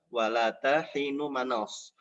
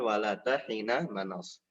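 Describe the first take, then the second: First: The vowel after 'hin' is a 'u' sound. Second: The vowel after 'hin' is an 'a' sound. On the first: Here the word is the subject and the predicate is dropped. "Menurut salah satu qiraah dibacanya adalah wala tahinu manas" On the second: Here the subject is dropped. "bukan wala tahina manas"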